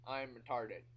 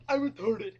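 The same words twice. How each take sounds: First: Said in the usual way. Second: Loud, high-pitched outburst; explosive shouted punchline; sudden yell. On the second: Acted. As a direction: blurt it out at full volume. Mock outburst in the monologue.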